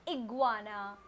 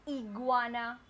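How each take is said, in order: No difference in how they are said.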